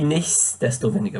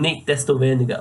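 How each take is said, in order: First: The middle of the word has an s sound. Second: The middle of the word has no s sound. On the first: The speaker calls it right. "with an S in the middle" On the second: The speaker calls it wrong. "without the S"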